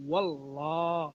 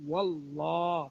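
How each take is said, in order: The two takes are said the same way.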